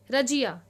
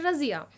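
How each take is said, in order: First: रजिया read as written, with a plain j sound; misspelt reading. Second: रजिया with a z sound, as ज़ with nukta; correct nukta sound. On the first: Teacher reading a pupil's misspelling aloud to children, pron. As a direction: say रजिया with j, not z, as the wrong spelling shows it. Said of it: "यहाँ पर लिखा है". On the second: Teacher giving the correct name from the lesson, pron. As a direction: say रजिया clearly with z. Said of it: "पाठ में जो नाम है लड़की का वो है". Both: Shown as a demonstration.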